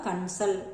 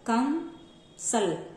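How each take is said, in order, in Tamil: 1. s-க்கு முன் உள்ள மூக்கொலி n ஒலி. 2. s-க்கு முன் உள்ள மூக்கொலி m ஒலி.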